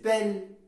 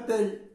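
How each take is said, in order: First: The vowel is an open, accented e sound. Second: The vowel is a neutral, unaccented e sound. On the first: The speaker calls it right. "c'est belle" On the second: The speaker calls it wrong. "Ce n'est pas belle"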